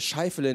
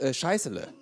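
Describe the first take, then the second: First: The middle consonant is an f sound. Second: The middle consonant is an s sound. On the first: The speaker calls it right. "der Name, der ist Scheifele" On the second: The speaker calls it wrong. "nicht Scheißele"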